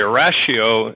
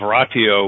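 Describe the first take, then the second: First: It is pronounced the Americanized way. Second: It is pronounced the original Latin way.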